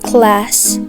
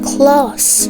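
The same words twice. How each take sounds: First: The vowel is a short, flat 'a' sound. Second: The vowel is a long, open 'ah' sound. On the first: The speaker calls it wrong. "not class" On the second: The speaker calls it right. "Said like class"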